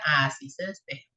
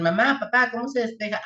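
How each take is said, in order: First: Low, confident, understated parent reply; knowing parent answer. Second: Imitating a kid asking. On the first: Retold or imitated. Parent answering the teen's homework question, low and sure. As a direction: answer like a parent who knows it. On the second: Teen asking parents how to solve it, lightly mimicked. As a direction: ask like a teenager stuck on homework. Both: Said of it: "cuando sus hijos ... les digan".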